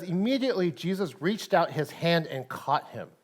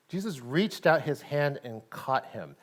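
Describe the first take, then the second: First: Said in the usual way. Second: Jesus reached out his hand and caught him, slowed with weight on out; savouring the key line; slow emphatic repeat. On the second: Shown as a demonstration. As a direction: linger on the point, lean on out. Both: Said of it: "this next part I've always missed".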